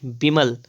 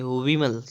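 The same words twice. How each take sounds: First: विमल starting with b; closed-lip b opening विमल; wrong pronunciation. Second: विमल starting with v; rounded v opening विमल; correct pronunciation. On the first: Teacher showing the error, विमल as bimal. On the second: Teacher correcting, विमल as vimal. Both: Shown as a demonstration. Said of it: "नहीं, विमल".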